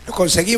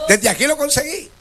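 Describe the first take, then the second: First: Said in the usual way. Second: "lo" marcado y "conseguí" con subida al final; énfasis en lo. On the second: Real, not acted. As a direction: remarca "lo" con orgullo. ("Desde aquí lo conseguí" con acento en "lo" y final subiendo)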